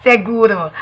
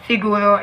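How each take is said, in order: First: "seguro" with an e in the first syllable; Spanish pronunciation. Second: "siguro" with an i in the first syllable; Tagalog pronunciation. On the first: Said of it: "In Espanyol". (bigkas Espanyol ng "seguro") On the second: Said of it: "In Tagalog". (bigkas Tagalog ng "siguro") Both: Shown as a demonstration.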